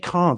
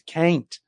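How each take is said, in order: First: The word is said with a British accent. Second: The word is said with an American accent. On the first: "He doesn't say can't" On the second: "he's saying everything with an American way"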